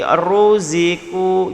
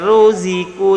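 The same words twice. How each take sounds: First: The first syllable's r is heavy and thick. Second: The first syllable's r is light and thin. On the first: The speaker calls it right. "Ru tu baca tebal" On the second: The speaker calls it wrong. "tak boleh ruziku"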